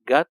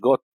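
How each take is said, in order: First: The vowel is a short, light o sound. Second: The vowel is a long o sound. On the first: The speaker calls it right. "خفيفه خالص" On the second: The speaker calls it wrong. "مش جوت"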